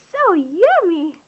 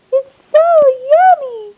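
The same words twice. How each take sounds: First: Said in the usual way. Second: High, louder sing-song praise. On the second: Real, not acted. High loud praise to baby.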